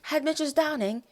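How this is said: It is said in the show's non-American accent. "I can say it in the accent"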